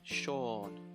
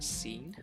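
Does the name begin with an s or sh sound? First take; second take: sh; s. First: It begins with an sh sound. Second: It begins with a plain s sound. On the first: The speaker calls it right. "the S sound kind of becomes an S H a little bit" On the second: The speaker calls it wrong. "Some people think this is pronounced scene. but it's not"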